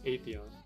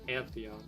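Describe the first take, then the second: First: No N sound comes before the TH. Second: An N sound comes before the TH. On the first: The speaker calls it right. "but it's Atheon" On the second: The speaker calls it wrong. "I used to call him Antheon, but Antheon is not the right way"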